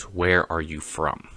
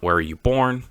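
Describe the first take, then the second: First: "where" drawn out slowly, softer; slow it down and lean on "where"; stress on where. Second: "born" lifted, the wrong question; stress on born. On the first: Correcting the question he hears, slow stress on "where". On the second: Correcting a common question, stress on "born". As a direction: lean on "born" a little higher. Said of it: "The question wasn't". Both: Shown as a demonstration.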